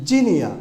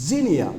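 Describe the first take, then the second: The two takes are said the same way.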